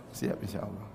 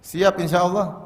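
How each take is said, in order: First: Much softer and lower, half-hearted; reluctant mumbled reply. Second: Said in the usual way. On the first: Pretend. Congregation's reluctant answer to the preacher, soft half-hearted mumble. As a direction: mumble it back like an unwilling congregation. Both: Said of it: "Berat kayaknya".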